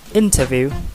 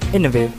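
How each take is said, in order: First: Every sound in the word keeps its usual form. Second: One sound changes under its neighbors' influence. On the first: "instead of saying" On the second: "we say"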